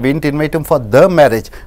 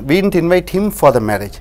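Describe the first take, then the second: First: The word 'the' carries the stress. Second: The word 'him' carries the stress. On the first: We invited him to a different wedding. "வேறு ஒரு திருமணத்துக்கு அழைத்தோம்" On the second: We invited someone else. "வேறு ஒருவரை அழைத்தோம்"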